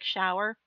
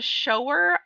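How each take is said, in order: First: The word does not rhyme with grower. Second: The word rhymes with grower. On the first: It means the thing you wash in. "in my head I was pronouncing it like shower" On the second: It means someone who shows something. "it totally makes sense when you rhyme it with grower"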